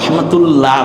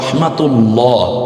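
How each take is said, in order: First: The L in 'ullah' is light and thin. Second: The L in 'ullah' is heavy and full. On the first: The speaker calls it wrong. "রহমাতুল্লাহ বলছি না, পাতলা হচ্ছে না" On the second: The speaker calls it right. "বরং রহমাতুল্লাহ"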